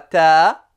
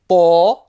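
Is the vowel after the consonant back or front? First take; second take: front; back. First: The vowel is front and light. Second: The vowel is back and heavy. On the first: The speaker calls it wrong. "et non pas ta" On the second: The speaker calls it right. "le T emphatique"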